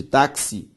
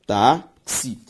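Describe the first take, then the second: First: Said in the usual way. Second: "táxi" split into tá, then xi; syllable by syllable. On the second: Shown as a demonstration. Teacher doing syllable separation, "táxi" syllable by syllable. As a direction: sound out "táxi" in two pieces with a pause between. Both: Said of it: "faço a separação silábica".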